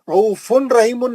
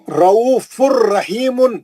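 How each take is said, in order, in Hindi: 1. n, r से पहले साफ़ बोला जाता है। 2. n पूरी तरह अगले r में मिल जाता है। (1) "रऊफुन रहीमुन नहीं" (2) "नून नहीं पढ़ेंगे अब आप"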